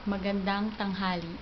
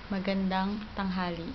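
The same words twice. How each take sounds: The two takes are said the same way.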